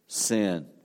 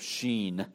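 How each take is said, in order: First: The name begins with an 's' sound. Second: The name begins with an 'sh' sound. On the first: This follows the English reading. The speaker calls it wrong. "not the wilderness of sin" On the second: This is closer to the original Hebrew. The speaker calls it right. "the Hebrew pronunciation would be more of Sheen"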